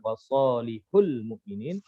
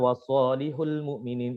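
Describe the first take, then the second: First: The syllable before the article is given stress. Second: The syllable before the article is said plainly. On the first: Many righteous people are meant. "dibaca dengan nabar" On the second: Only one righteous person is meant. "hanya satu orang"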